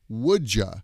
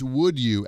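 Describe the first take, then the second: First: The second word is reduced to a weak ya. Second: Both words are said fully and separately.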